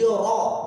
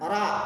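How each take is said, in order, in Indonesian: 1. Vokalnya dibaca seperti o. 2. Vokalnya dibaca seperti a. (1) "itu harus disebut o-nya" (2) "bukan ra"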